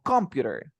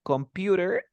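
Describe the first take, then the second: First: Slow "computer" as COM-pu-ter, falling; stress on first syllable. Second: "Computer" as com-PU-ter, lifted like a question; stress on second syllable. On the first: Student offering teacher the other option, COM-pu-ter stress. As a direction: put the weight on COM in "computer". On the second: Student asking teacher which is right, com-PU-ter stress. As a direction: put the weight on PU in "Computer", rising. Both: Shown as a demonstration. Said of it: "para mejorar el syllable stress".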